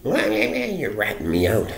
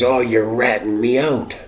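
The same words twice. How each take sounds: First: Slow, high drawn-out whine; imitating the drunk, higher and slowed right down; mocking drunk. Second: High mocking whine of the drunk; imitating the drunk neighbor, higher and louder. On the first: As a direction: stretch it out like a sulky drunk. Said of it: "he said". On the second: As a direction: mimic his accusing sneer, pitched up and louder. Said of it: "he looks at me and he says".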